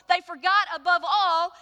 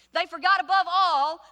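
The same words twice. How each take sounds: The two takes are said the same way.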